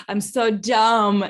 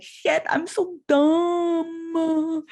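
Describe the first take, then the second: First: Slow and louder; real self-reproach. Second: Very slow, higher, hammed-up dumb voice; mock dumb contestant. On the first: Real, not acted. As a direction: drag out each word of the self-reproach. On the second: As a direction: stretch it out like a clueless quiz contestant. Imagined quiz-show answer.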